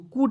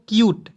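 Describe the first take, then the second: First: The word is said with a plain oo sound. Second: The word is said with a yoo sound. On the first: The speaker calls it wrong. "कूट नहीं पढ़ेंगे" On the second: The speaker calls it right. "इसका उच्चारण यूट के रूप में करना है"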